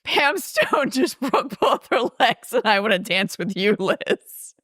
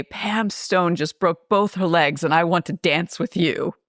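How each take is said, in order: First: High, giggle-squeezed quote; line squeaked out through suppressed laughter; laughing retold quote. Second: Said in the usual way. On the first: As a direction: try to deliver it while cracking up. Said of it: "Railings comes in and says". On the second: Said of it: "And she says".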